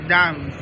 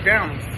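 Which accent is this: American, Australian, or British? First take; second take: British; American. First: A British accent with a long vowel. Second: An American accent with a short vowel. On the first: "In British English is dance" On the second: "In American English is dance"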